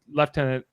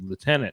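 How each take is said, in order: First: It is said with a British pronunciation. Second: It is said with an anglicized pronunciation. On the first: "lieutenant is the British version" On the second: "anglicized over time to lieutenant"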